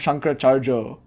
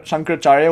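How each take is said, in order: First: The name ends with a 'jo' sound. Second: The name ends with a 'ya' sound.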